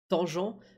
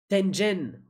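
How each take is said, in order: First: The name is said like the French word tangente. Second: The name is said with a hard g sound. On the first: The speaker calls it wrong. "pour moi, c'était le cosinus de tangente" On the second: The speaker calls it right. "Je suis désolé pour la prononciation"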